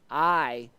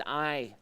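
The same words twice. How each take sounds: First: "I" hit hard and louder; emphatic I. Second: Said in the usual way. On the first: Shown as a demonstration. Reading the psalm's repeated I with emphasis. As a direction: punch the repeated "I". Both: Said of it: "and it's an emphatic".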